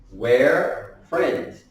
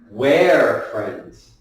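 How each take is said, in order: First: It starts with one shortened word. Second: The same.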